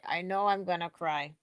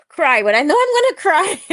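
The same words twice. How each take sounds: First: Said in the usual way. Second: High and loud, bursting with giddy anticipation; excited outburst. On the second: Real, not acted. Host picturing herself at the concert, excited high and loud. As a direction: blurt it out, half laughing at yourself.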